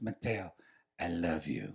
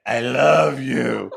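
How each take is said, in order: First: Soft, tender I love you; tender confession. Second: Slow, deliberate I love you; slow earnest confession. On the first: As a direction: murmur it like a lover. Lover's tender confession retold. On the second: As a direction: lean into each word. Lover repeats confession slowly. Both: Retold or imitated.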